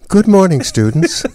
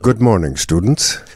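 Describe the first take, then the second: First: Said in a lighter, younger-sounding voice. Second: Said in a deep, full announcer voice.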